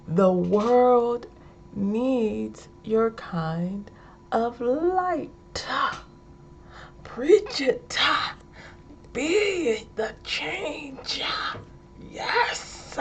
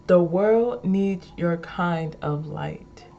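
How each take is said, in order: First: Slow, high, stretched sermon cries; mock preacher. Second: Said in the usual way. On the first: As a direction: punch every ending with a preacher's "-ah". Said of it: "Okay, I'm sorry". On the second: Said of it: "I'll say this one again".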